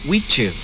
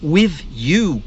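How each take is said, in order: First: 'With' ends in a ch sound. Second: 'With' ends in a th sound.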